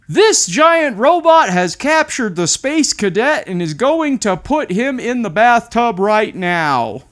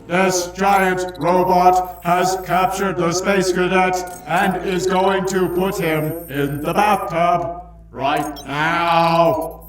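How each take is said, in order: First: It is said in a normal voice. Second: It is said in a robot voice.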